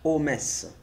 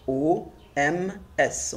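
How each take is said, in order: First: "O M S" run together as one linked unit; O M S with the O sliding into the M; liaison. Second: O, M, S spelled out slowly, letter by letter; slow, separate letters in "O M S"; letters separated. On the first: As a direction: link the letters of O M S smoothly. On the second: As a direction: spell O M S with each letter apart. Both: Shown as a demonstration. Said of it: "On fait la liaison".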